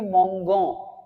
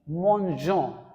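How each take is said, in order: First: The middle consonant is a hard g sound. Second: The middle consonant is a soft zh sound. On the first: The speaker calls it wrong. "That is the wrong pronunciation in French" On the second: The speaker calls it right. "So the right pronunciation would be nous mangeons"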